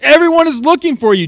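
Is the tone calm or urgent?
urgent. It is said in an urgent, pressing tone.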